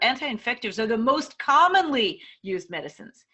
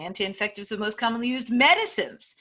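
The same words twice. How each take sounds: First: The emphasis falls on most commonly. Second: The emphasis falls on medicines. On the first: How often they are used matters most. "Maybe the most commonly is the most important part" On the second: They are medicines rather than equipment. "Maybe the medicines is the most important"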